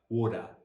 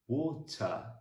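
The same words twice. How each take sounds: First: The middle consonant sounds like a soft d. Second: The middle consonant is a crisp t sound. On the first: This is the American pronunciation. "Americans will move that t into more of a d" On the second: This is the British pronunciation. "you hit the t"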